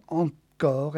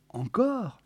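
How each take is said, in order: First: Insistent. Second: High, questioning disbelief; incredulous question. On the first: A narrator's reading. Geneviève answers Walter's query, insistent. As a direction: state it as a settled demand. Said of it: "insista-t-elle". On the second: Acted. Walter hears she wants the film rerun, incredulous. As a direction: query it in dismay.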